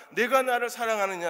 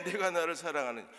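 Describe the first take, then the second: First: Solemn question. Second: Softer solemn question. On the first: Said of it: "세 번째 이르시되". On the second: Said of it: "주께서 세 번째". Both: Acted.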